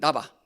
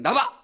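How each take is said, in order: First: It sounds slightly annoyed. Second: It sounds angry and harsh.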